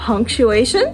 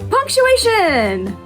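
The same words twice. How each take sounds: First: It is said with a rising, questioning tune. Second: It is said with strong, excited emphasis. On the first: A question is being asked. "The second inflection I used was almost as if I asked a question" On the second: Something is being emphasized. "we use an exclamation point when we want to emphasize something"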